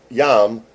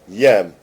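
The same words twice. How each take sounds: First: "yam" with an open a as in jam; wrong vowel, yam. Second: "Yem" with an e as in them; corrected vowel, yem. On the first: Repeating the correction to the assistant, "yam" with open a. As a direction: give "yam" its open a, set apart. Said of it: "Not yam". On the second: Repeating the correction to the assistant, "Yem" with e. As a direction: say "Yem" firmly with a short e. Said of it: "Not yam. Yem". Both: Shown as a demonstration.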